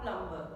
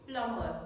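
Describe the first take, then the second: First: "plumber" with an audible b after the m; mispronounced plumber. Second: Said in the usual way. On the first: Shown as a demonstration. Teacher warning learners off the mistake, b sounded in "plumber". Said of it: "not plumber". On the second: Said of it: "It's plumber, not plumber".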